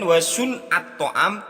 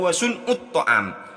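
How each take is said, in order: First: The vowel after the n is 'a'. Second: The vowel after the n is 'u'. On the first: The speaker calls it right. "Kemudian wa sun'at ta'am" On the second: The speaker calls it wrong. "kok dibaca wa sun'ut ta'am"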